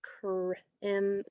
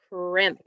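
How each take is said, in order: First: CR, then IM, with a break between; sounded out in parts. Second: Said in the usual way. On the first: Shown as a demonstration. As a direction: segment the word as "cr-, im-". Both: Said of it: "it's gonna be".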